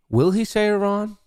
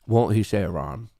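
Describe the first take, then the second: First: High-pitched teasing question, held up high. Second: Counter-question dropped back down low; teasing counter-question. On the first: Streamer weighing a bet on Iran aloud, high teasing question. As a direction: pose it high, as one side of a debate. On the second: Streamer weighing the other side of the bet, low teasing counter-question. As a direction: pose the other side in a lower voice. Answers the high take, lower. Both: Pretend.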